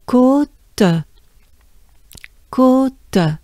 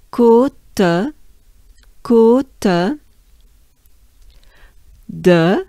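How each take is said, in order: First: Côte with the O held long; French côte. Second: Côte with a held O and a trailing uh; French côte de. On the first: Teacher stretching the O of côte. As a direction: hold the O in côte. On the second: Teacher linking côte de slowly. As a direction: say côte de with the uh clearly. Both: Shown as a demonstration. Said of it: "sustained on the O".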